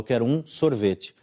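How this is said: The stress is on sorvete.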